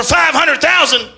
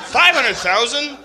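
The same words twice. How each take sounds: First: Five hundred "thousand" shouted high and loud, falling; Alex Jones rant. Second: Incredulous. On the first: Retold or imitated. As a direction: bark "thousand" like a frantic host. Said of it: "Alex Jones is a conspiracy theorist". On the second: Real, not acted. Incredulous repeat of the number.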